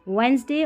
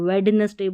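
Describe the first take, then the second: First: The middle d is left out entirely. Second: Every letter is sounded, including the middle d. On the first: The speaker calls it right. "इस तरीके से इसको पढ़ना है" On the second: The speaker calls it wrong. "इसको वेडनेसडे बोल दिया"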